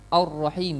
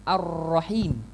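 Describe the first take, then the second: First: The first vowel sounds like 'o'. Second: The first vowel sounds like 'a'. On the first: The speaker calls it wrong. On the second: The speaker calls it right.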